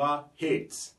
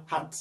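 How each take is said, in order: First: "hate" with a long "ey" vowel and final t; English A sound. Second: "hat" with an open, short "ah" and a final t; short French A. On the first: Teacher showing the second sound, long English A. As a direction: say "hate" slowly, as "heyt". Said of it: "la voyelle prend automatiquement son son en anglais". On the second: Teacher reading the example word, short French A. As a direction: say "hat" as "haht". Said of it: "on prononce comme si on avait un mot en français". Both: Shown as a demonstration.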